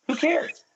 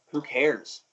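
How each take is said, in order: First: Much higher, exclaimed brush-off; high-pitched retold dismissal; carefree outburst. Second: Offhand retold "who cares"; casual brush-off; dismissive. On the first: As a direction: throw it out high, as if letting go. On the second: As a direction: shrug it off in your usual register. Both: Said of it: "I was like".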